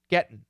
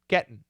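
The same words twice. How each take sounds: First: The T is stopped before a nasal ending. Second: The same.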